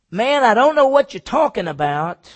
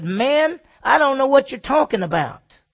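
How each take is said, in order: First: Louder and higher, shouted off; Peter's loud denial. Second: Louder and higher, brushing them off; Peter's loud denial. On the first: Preacher repeating Peter's denial to the servant girl, louder. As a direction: bark it back at the crowd. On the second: Preacher voicing Peter to the accusers, loud denial. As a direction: shove the accusation away, loud. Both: Retold or imitated.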